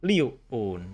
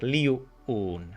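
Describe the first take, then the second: Both takes have the same delivery.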